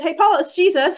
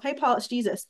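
First: Bright, much higher and louder call of the name; eager, raised hello to Paul; excited greeting. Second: Said in the usual way. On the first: Retold or imitated. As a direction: announce it like the best news. Jesus's words quoted with delight.

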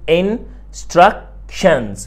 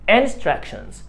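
First: "Instructions" slowly broken into in, struc, tions; split into syllables. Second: Said in the usual way. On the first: Shown as a demonstration. Teacher divides the word for the student, "Instructions" syllable by syllable. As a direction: say "Instructions" in three parts with gaps between. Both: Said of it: "احنا طبعًا بنقسمها".

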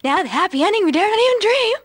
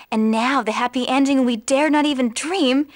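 First: Quick, high, climbing delivery; exaggerated upward tune, ending high; rising pitch. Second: Said in the usual way. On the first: Shown as a demonstration. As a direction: race up the scale to the last word. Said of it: "going up and up and up". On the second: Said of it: "Did you notice that?".

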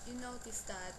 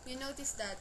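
No difference in how they are said.

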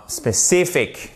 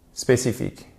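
First: SPECIFIC slowed, high stress on CI; stressed second syllable. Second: SPÉCIFIQUE in even French syllables; French pronunciation. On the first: Teacher models the English word, stress on second syllable. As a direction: lean hard on the CI of SPECIFIC. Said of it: "c'est l'accent tonique". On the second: Teacher contrasts the learners' mistake, French-sounding word. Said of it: "si vous dites spécifique". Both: Shown as a demonstration.

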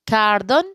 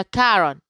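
First: كاردون with the d clearly sounded: kar-DON. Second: كارون with no d at all: ka-ron; d dropped. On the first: (كاردون بنطق الدال بوضوح) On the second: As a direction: say كارون, skipping the d entirely. (كارون بدون نطق الدال) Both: Shown as a demonstration. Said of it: "كاردون ولا كارون؟".

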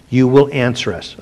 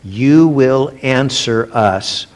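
First: "will" stressed in you will answer us; "will" carries the weight, falling at the end. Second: You will answer us, slow with weight on "you"; "you" stretched and stressed, unhurried. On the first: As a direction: press on "will", steady pace. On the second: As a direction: lean hard on "you", slowly. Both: Shown as a demonstration.

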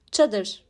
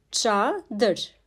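First: Said in the usual way. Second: "Çadır" drawn out as Ça, dır; syllable-by-syllable pronunciation. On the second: Shown as a demonstration. Teacher showing the letter Ç in "Çadır", syllable by syllable. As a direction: hold Ça, then add dır for "Çadır". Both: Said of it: "Ç harfi".

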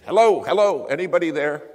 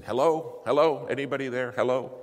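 First: High, full-force shout for help; desperate shouting. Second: Loud, raised radio call for help; urgent calling out. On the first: Lawyer after ten minutes of calling, desperate shout. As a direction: bellow into the radio, desperate for an answer. Last desperate radio call. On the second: Lawyer on the mic seeking help, urgent calling out. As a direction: call out quickly for anyone listening. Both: Retold or imitated.

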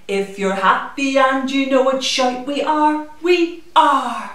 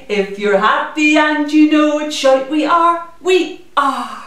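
The two takes are said the same way.

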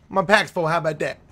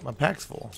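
First: Mock indignant. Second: Said in the usual way. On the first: Shown as a demonstration.

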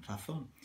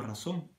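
First: "razón" with a Spanish th for the z; Castilian th on "razón". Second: "razón" with an s sound for the z. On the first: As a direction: say the z in "razón" as in "think". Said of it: "aquí dicen". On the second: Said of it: "porque no la pronuncio". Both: Shown as a demonstration.

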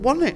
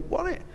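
First: Much higher, eager Wasn't it?; mock delight. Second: Much higher and softer Wasn't it?; a quiet, pleased echo to the lighting guy; hushed delight. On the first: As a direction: play it as thrilled agreement with the sound man. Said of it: "And we've gone". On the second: Retold or imitated. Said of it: "And you go".

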